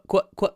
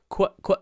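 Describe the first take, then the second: No difference in how they are said.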